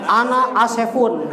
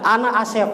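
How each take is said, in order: First: "Asefun" with un added to Asep; wrong tanwin ending. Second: "Asep" stopped on the p, no un; unchanged name ending. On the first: Teacher mocking a wrongly Arabized name, added ending. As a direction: tack a sounded un onto "Asefun". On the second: Teacher correcting the class, name kept without ending. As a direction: end "Asep" on its consonant. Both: Shown as a demonstration.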